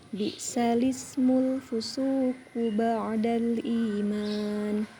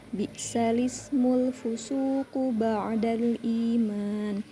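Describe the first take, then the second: Both takes have the same delivery.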